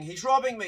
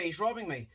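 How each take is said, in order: First: Mock scream, higher and louder; retold scream. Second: Said in the usual way. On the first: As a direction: shout it like a panicked passenger being robbed. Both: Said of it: "somebody starts screaming".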